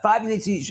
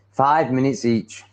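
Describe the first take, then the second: First: Higher-pitched, half-hearted attempt at an Indian accent. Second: Said in the usual way. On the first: Customers haggling with a bar girl, attempted Indian accent. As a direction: try an Indian accent lightly. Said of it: "I can't do an Indian accent". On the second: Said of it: "I'm not even gonna try".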